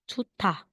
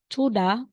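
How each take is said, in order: First: The middle consonant is aspirated, with a puff of air. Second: The middle consonant is plain, without a puff of air. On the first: The speaker calls it right. "bibigkasin mo na ngayon si letter D na may aspirated" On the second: The speaker calls it wrong. "instead na sabihin mong chuda"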